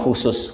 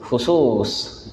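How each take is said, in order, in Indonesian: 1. Diucapkan dengan lafal Indonesia. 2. Diucapkan dengan lafal Arab asli. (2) "Kalau nyebut yang benarnya gimana? ... nah itu asli"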